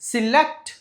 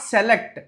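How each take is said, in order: First: The first syllable has a short 'si' vowel. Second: The first syllable has an open 'se' vowel. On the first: The speaker calls it right. "సి అండి" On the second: The speaker calls it wrong. "Not"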